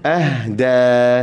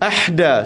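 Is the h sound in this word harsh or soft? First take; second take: soft; harsh. First: The h sound is said softly and lightly. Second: The h sound is said harshly and sharply. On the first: The speaker calls it right. "Lembut je" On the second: The speaker calls it wrong. "salah. Jangan pedaskan"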